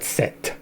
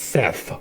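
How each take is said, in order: First: The name ends with a plain t sound. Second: The name ends with a th sound. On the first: The speaker calls it wrong. "not Set" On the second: The speaker calls it right. "They put an H on it. It's Seth"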